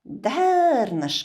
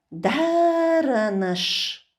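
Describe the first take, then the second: First: The word is said without the middle vowel. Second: The word is said with the middle vowel. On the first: This is how it is spoken. "Дарнаш говорим" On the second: This is how it is written. "Даранаш написано"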